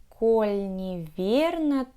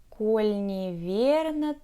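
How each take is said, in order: No difference in how they are said.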